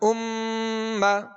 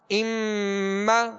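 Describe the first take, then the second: First: The doubled m is held as a long nasal hum. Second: The doubled m is held as a long nasal hum.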